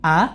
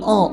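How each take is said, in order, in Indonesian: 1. Vokalnya ringan dan tipis, seperti a. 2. Vokalnya berat dan tebal, seperti o. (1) "Alifnya itu yang seharusnya bunyinya fathah ya" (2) "dia baca jadi tebal"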